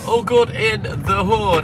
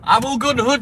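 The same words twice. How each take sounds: First: Slow, stretched "good in the hood" with weight on good; drawn-out catchphrase. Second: Said in the usual way. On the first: Shown as a demonstration. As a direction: savour each word of "All good in the hood".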